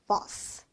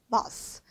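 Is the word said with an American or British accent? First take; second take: British; British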